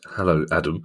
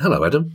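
First: The greeting sounds sinister. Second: The greeting sounds friendly.

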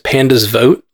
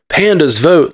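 First: It is said flatly, as a plain statement. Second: It is said loudly, as a rousing call. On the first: It is obvious that pandas vote. "like of course pandas vote" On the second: It is a call for pandas to go vote. "like Avengers assemble"

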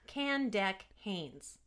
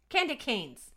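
First: It is said at a normal, careful pace. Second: It is said quickly, running together.

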